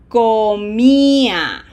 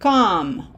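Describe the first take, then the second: First: The stressed i is held long and clear. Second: The stressed i is clipped short. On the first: The speaker calls it right. "this is comía" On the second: The speaker calls it wrong. "This is not com"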